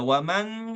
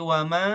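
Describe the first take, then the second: First: The final n is pronounced fully and clearly. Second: The final n is a faint, hidden nasal. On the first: The speaker calls it wrong. "Tidak waman gitu" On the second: The speaker calls it right. "tapi wama oh itu agak samar"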